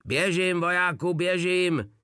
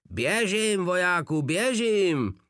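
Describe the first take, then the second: First: Pitched-up mock yell, a touch frantic; desperate shriek. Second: Higher, more frantic mock yell; repeated yell. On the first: Blac screams at Drobeček, a hammed-up desperate yell. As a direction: shriek the order in frustration. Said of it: "ječel zoufale Blac". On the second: Blac repeats his order, even more frantic and shrill. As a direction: scream it once more, desperate. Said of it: "opakoval Blac". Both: A narrator's reading.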